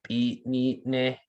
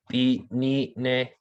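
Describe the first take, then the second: Both takes have the same delivery.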